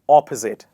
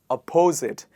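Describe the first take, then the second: First: The stress is on the first syllable. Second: The stress is on the second syllable. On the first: The speaker calls it right. "We actually stress on the first part of the word" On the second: The speaker calls it wrong. "A lot of people pronounce it by stressing on the second part"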